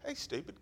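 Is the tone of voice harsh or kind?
kind. It is said in a warm, friendly tone. The listener is welcome. "Wags that tail"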